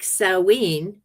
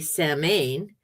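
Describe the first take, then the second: First: The word is not pronounced as it is spelled. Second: The word is pronounced the way it is spelled.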